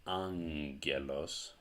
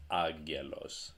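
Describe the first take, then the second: First: Angelos as "ang-GHE-los"; ng pronunciation. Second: Agelos as "ag-GHE-los"; plain g pronunciation. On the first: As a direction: angelos with ng before a hard g. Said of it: "you can either pronounce this as". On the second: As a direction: agelos with a hard g, no n. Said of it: "or you can pronounce it as". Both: Shown as a demonstration.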